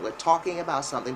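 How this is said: It is said with an American accent. "Americans would say talk or talk"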